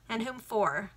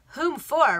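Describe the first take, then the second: First: Said in the usual way. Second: "Whom" punched higher and louder, falling on "for"; stressed repeat. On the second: Acted. Baronet repeating the question haughtily, hitting "Whom". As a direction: throw "Whom" back at him indignantly. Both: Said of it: "repeated the baronet".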